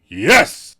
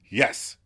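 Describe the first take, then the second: First: The word is said forcefully and defiantly. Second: The word is said in a plain, agreeing way. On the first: "a more defiant" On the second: "Chandler agrees"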